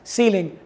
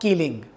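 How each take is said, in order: First: The word begins with an /s/ sound. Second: The word begins with a /k/ sound. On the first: The speaker calls it right. "pronounced as ceiling" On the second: The speaker calls it wrong. "not keeling"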